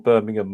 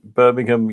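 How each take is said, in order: First: It is said with a British pronunciation. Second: It is said with an American pronunciation. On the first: It refers to the British city. "my Birmingham" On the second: It refers to the American city. "your Birmingham"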